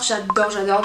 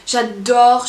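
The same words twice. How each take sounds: First: Said in the usual way. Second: Sudden loud gushing j'adore; a loud, thrilled j'adore; excited burst. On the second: Real, not acted. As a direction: blurt it out with delight. Gushing over pixel art app.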